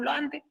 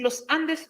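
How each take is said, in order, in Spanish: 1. La frase se dice relajada, con la s debilitada. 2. La frase se dice completa, con la s clara. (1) "no queremos pronunciar completa la palabra" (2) "no queremos decir los Andes"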